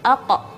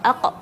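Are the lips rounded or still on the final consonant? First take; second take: still; still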